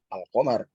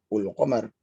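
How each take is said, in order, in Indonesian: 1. Kata ini diawali dengan vokal a. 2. Kata ini diawali dengan vokal u. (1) "kalau di sini ada a"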